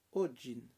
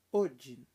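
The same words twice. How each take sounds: First: "Odin" with a clean hard D; plain French D. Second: "Odin" with the D said like "dj"; Portuguese "dj" sound. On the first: Teacher showing the French D in Odin. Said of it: "É D normal". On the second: Teacher imitating the Brazilian way of saying Odin. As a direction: soften the D in "Odin" to a "dj". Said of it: "Odin, você não precisa falar assim". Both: Shown as a demonstration.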